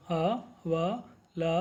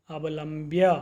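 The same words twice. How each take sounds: First: अवलंब्य split slowly as अ-व-लं-ब्य, each syllable drawn out. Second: Said in the usual way. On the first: Shown as a demonstration. Teacher drills students in Sanskrit pronunciation, slow and syllabic. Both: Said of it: "तो आप इसका उच्चारण करें".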